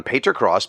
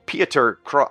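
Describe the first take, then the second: First: "Pater Cross" as PAY-ter, read straight through; second attempt. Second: "Pieter" said as PEE-ter, cut off at "Cro-"; botched name. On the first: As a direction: say "Pater Cross" with an ay vowel, without stopping. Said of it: "I'm just gonna try Pater". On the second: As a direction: stumble on "Pieter Cro-" with a long ee. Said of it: "I probably got that wrong". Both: Real, not acted.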